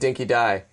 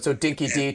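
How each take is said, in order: First: The name is said with the Australian pronunciation. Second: The name is said without the Australian pronunciation.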